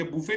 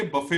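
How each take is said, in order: First: बूफे with a long oo sound; wrong pronunciation. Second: बफे with a short uh vowel; correct pronunciation. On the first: Teacher showing a student the mistaken form. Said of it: "ये बूफे नहीं होता". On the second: Teacher modelling the right way for a student. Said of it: "ये बफे होता है". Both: Shown as a demonstration.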